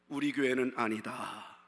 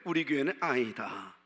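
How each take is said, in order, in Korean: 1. 표준 한국어로 말해요. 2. 지역 사투리로 말해요.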